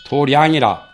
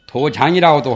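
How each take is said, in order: First: The second syllable starts with an r sound. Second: The second syllable starts with a j sound. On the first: This is the customary temple pronunciation. "절집에서는 도량" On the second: This is the ordinary reading of the word. "도장이라고도 하고"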